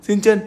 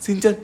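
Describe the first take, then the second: No difference in how they are said.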